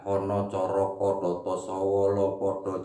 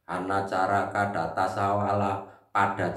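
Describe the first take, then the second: First: The vowels are pronounced with an 'o' sound. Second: The vowels are pronounced with an 'a' sound. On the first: This is the Central or East Javanese way. "orang Jawa Timur atau Jawa Tengah hono" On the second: This is the West Javanese way. "Kalau orang Jawa Barat hana"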